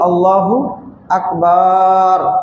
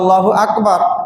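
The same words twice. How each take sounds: First: The second vowel of Akbar is drawn out long. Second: The second vowel of Akbar is kept short. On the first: The phrase takes on a different, improper meaning. The speaker calls it wrong. "আকবার যখন টান দিয়ে বলা হবে" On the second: God is the greatest. The speaker calls it right. "অর্থ তো আল্লাহ সবচেয়ে বড়"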